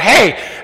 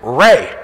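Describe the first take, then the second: First: The word begins with an H sound. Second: The word begins with an English R sound. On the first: "Portuguese R, ... R is a H. So they go" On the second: "my name is Ray"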